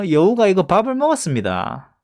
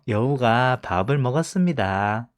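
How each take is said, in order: First: It is said with a regional dialect accent. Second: It is said with a standard accent. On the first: The speaker calls it wrong. "이렇게 이야기를 하실 수는 없잖아요" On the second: The speaker calls it right. "최대한 표준어로 말하면서"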